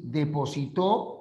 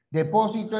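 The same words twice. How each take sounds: First: Depositó, with the final syllable TÓ stressed. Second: Depósito, with the second syllable PÓ stressed. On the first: Teacher naming the action, final stress on TÓ in depositó. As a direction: push the last syllable of "depositó". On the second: Teacher naming the place, stress on PÓ in Depósito. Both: Shown as a demonstration. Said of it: "El acento es la mayor fuerza de voz".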